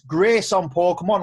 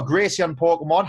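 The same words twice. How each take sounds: First: "Grace on" with no ee sound after Grace; two-syllable Grace-on. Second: "Gracie on", an added ee after the s; three-syllable Gracie-on. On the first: Host asks guest which name is right, pronounced "Grace on". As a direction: say "Grace on" as grace plus on, no ee between. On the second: Host offers guest the other version, pronounced "Gracie on". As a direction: say "Gracie on" with an ee before the on. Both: Shown as a demonstration. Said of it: "How would you like us being, being pronounced".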